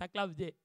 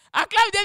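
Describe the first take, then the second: First: Said in the usual way. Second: "Acclame Dieu" shouted high and loud; preacher's loud cry of "Acclame Dieu"; shouted praise. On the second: Real, not acted. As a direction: call out "Acclame Dieu" to the crowd.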